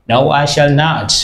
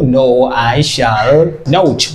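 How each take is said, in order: First: Said in the usual way. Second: Slow, drawn-out "not" leaned on hard; stress on not. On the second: Shown as a demonstration. Teacher showing students the negative answer, slowly stressing "not". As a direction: stretch "I shall not" slowly and hit "not". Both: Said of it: "We add not here".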